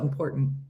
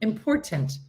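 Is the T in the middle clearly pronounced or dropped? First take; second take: dropped; pronounced. First: The middle T is dropped. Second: The middle T is clearly pronounced.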